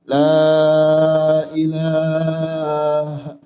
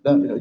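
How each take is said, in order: First: The phrase is said slowly and clearly. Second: The phrase is said quickly and hurriedly. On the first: The dying person can follow and repeat it. The speaker calls it right. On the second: The dying person cannot follow it. The speaker calls it wrong. "jangan cepat-cepat Pak"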